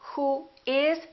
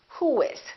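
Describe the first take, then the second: First: The two words are said separately. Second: A w glide joins the two words.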